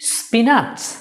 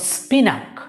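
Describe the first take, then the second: First: The second syllable sounds like 'natch'. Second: The second syllable sounds like 'nak'. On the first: "দুটোর একটিও সঠিক নয়" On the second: "দুটোর একটিও সঠিক নয়"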